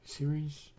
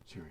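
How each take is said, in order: First: Series? with a rising question tune. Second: Said in the usual way. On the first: Real, not acted. Streamer rereading the puzzle name, puzzled rising question. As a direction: ask it back, puzzled.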